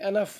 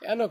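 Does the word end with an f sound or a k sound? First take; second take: f sound; k sound. First: The word ends with an f sound. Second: The word ends with a k sound. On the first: The speaker calls it right. "এনাফ মানে যথেষ্ট" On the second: The speaker calls it wrong. "এনক না"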